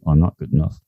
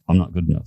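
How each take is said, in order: First: It is said at a normal, steady pace. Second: It is said at a quicker pace. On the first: "say it seriously" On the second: "say it a bit faster"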